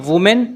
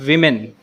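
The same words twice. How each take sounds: First: Women as WOO-men; wrong pronunciation. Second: Women as WIM-en, falling; correct pronunciation. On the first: Teacher recaps the mistake, mispronounced women. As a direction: put an OO sound in women. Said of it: "It's not women". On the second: Teacher recaps the right form, correctly pronounced women. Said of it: "it's women". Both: Shown as a demonstration.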